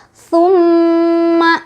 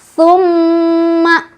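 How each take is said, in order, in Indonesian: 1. Huruf m yang dobel dibaca dengung dan ditahan panjang. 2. Huruf m yang dobel dibaca dengung dan ditahan panjang.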